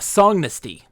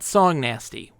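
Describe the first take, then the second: First: The name ends sounding like 'dynasty'. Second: The name ends sounding like the word 'nasty'. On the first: The speaker calls it right. "Part song, part dynasty. Songnasty" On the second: The speaker calls it wrong. "not song nasty. We don't do that nonsense"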